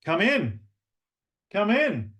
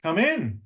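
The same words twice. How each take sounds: First: "Come in" lifted high; upward tone. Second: "Come in" high, smiling; with a smile. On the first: Coach greets a latecomer with rising, friendly tone. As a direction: raise the pitch on "Come in". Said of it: "when we move our voices up". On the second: Coach greets a latecomer smiling. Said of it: "Add a smile". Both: Shown as a demonstration.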